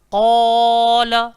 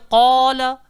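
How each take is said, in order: First: The long vowel is stretched out too long. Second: The long vowel is held for a normal length. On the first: The speaker calls it wrong. "tak sedap" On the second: The speaker calls it right. "Kalau bunyi dia qala"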